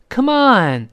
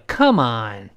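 First: "Come on" with a high, falling ON; encouraging, stress on ON. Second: "Come on" low, COME heavy, "on" light; dismissive, stress on COME. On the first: Teacher models cheering someone on, stress on ON in "Come on". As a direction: urge them, punching "on" in "Come on". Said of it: "如果表示鼓励对方". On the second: Teacher models answering nonsense, stress on COME in "Come on". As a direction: brush it off, weight on "Come" in "Come on". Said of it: "都是come重而on轻一些". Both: Shown as a demonstration.

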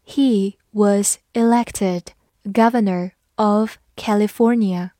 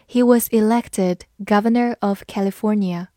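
First: "He was elected governor of California" read slowly. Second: Said in the usual way. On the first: Shown as a demonstration. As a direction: take each word slowly. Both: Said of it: "慢慢来读".

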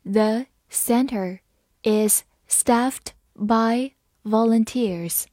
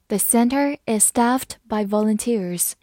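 First: Slow, phrase by phrase; slow reading. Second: Said in the usual way. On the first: Shown as a demonstration. Teacher reading slowly for students to follow. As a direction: read it slowly for the learners. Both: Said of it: "好，慢慢来读。".

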